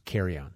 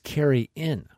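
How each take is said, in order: First: The word ends sounding like 'on', like carrion. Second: The word ends with a clear 'in' sound. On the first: It sounds like dead meat eaten by vultures. "the way they said it was carry-on" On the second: It is a meal where everyone brings food. "But it was carry-in"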